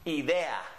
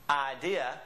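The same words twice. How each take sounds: First: It is said with Spanish vowel sounds. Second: It is said with English vowel sounds. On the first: "in Spanish, it would always be pronounced idea" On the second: "we say idea, some of us"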